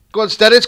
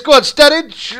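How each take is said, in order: First: Said in the usual way. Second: Much higher, louder yell; urgent shout. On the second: Real, not acted. Gamer screaming Sturridge on. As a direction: scream him on.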